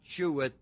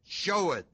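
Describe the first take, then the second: First: The first syllable does not sound like 'show'. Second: The first syllable sounds like 'show'. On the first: The speaker calls it wrong. "is not sheweth" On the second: The speaker calls it right. "pronounced like S-H-O-W"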